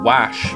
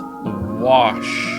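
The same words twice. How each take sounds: First: The vowel rhymes with mash. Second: The vowel does not rhyme with mash.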